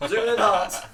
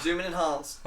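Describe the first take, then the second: First: Louder, higher, hammed-up shout; loud excited shout. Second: Mock excited. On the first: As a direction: yell it like a TV detective. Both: Movie cliché call.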